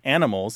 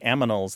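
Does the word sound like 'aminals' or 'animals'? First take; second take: animals; aminals. First: The n and m sounds are in standard order. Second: The m and n sounds are swapped. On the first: The speaker calls it right. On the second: The speaker calls it wrong.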